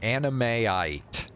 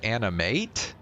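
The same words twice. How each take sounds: First: Animeite said slowly as anime-ite, last syllable rhyming with "kite"; anime-ite pronunciation. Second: Animate ending like the number eight, with a questioning rise; number-eight pronunciation. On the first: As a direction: sound out Animeite with a long falling "ite". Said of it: "supposed to be pronouncing it". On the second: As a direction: try animate with "eight" as its last syllable, unsure. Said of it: "pronouncing it like the number eight". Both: Shown as a demonstration.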